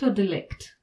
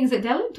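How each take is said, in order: First: Delict as di-LICT, with a short "di"; second pronunciation option. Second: Delict as DEL-ict, with an open "del"; first pronunciation option. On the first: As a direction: stress the last syllable of delict. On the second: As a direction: stress the first syllable of delict. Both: Shown as a demonstration. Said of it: "is it delict or delict".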